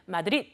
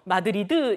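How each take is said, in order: First: The word ends on a clipped final consonant. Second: The word ends with an added final vowel. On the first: The speaker calls it right. "스페인어는 마드릿 하고 받침으로 붙여주셔야 되죠" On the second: The speaker calls it wrong. "한국어로 마드리드 이렇게 하는데"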